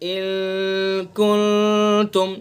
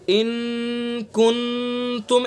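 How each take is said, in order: First: The n is hidden and voiced through the nose. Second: The n is pronounced clearly without nasal hiding. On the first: The speaker calls it right. "बल्कि नाक के बासे से अदा करेंगे" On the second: The speaker calls it wrong. "ऐसा नहीं पढ़ेंगे हम"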